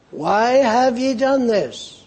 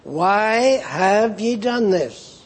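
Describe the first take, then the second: First: Higher, slow, searching why; God asking his people why they strayed; God's pleading question. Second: Slow, weighty reading of the question; a solemn God asking why; God's question. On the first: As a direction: lift the voice and plead slowly. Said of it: "God wants to know why". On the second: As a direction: let each word land, slowly. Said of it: "what does God say". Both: Acted.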